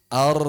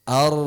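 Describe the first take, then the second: The two takes are said the same way.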